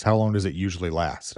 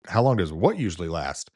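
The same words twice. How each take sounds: First: Said in the usual way. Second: Incredulous emphasis on "what"; stress on "what". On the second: Retold or imitated. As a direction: throw the question back, pitch jumping up on "what". Baffled echo of wife's question.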